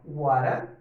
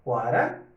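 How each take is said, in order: First: The t is a flap, linked like r. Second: The same.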